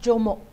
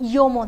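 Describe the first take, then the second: First: The name begins with a J sound. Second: The name begins with a Y sound. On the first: The speaker calls it wrong. "But it is not ಜೋಮೋ" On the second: The speaker calls it right. "ಅದನ್ನು ಯೋಮೋ ಅಂತ ಕರಿತೀವಿ"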